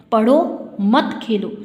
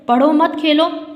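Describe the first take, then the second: First: पढ़ो alone, a clear pause, then मत खेलो together; pause after पढ़ो. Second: पढ़ो मत run together and louder, then Khelo; pause after मत. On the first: Teacher ordering study and forbidding play, pause after पढ़ो. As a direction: break after पढ़ो, slow and deliberate. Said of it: "पढ़ने के लिए कहा जा रहा है आपको और खेलने के लिए मना". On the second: Teacher forbidding study and allowing play, पढ़ो मत joined. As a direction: join मत onto पढ़ो, break before Khelo. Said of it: "पढ़ाई नहीं करनी है आपको, खेलना है". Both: Shown as a demonstration.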